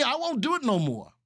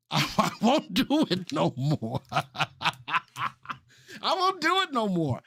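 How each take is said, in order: First: Said in the usual way. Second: Slow, laughing promise. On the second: Real, not acted. Host to chat, joking promise through laughter. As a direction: giggle through the vow.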